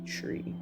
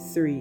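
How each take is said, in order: First: The word begins with a hard t sound. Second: The word begins with a soft th sound. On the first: The speaker calls it right. "we say three" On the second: The speaker calls it wrong. "we don't say three in A T C"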